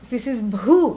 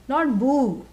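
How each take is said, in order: First: The first b sound has breathy aspiration. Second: The first b sound has no breathy aspiration. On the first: The speaker calls it right. "this is bhoo, mahaprana" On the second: The speaker calls it wrong. "Not boo, which you do in Halloween"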